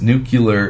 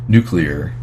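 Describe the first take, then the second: First: It is said like 'nuke-yuh-ler'. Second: It is said like 'nuke-lee-er'. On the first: The speaker calls it wrong. "is the wrong way" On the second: The speaker calls it right. "is the correct yeah. way"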